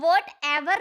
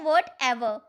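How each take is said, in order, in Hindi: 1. 'ever' वाला हिस्सा ज़ोर देकर बोला जाता है। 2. 'ever' वाला हिस्सा हल्के ज़ोर से बोला जाता है। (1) "कभी भी हम व्हाट एवर नहीं बोलते हैं, इसे एवर नहीं बोला जाता है" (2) "ई और आर पर ज्यादा स्ट्रेस नहीं दिया जाता, सिर्फ बोलते हैं"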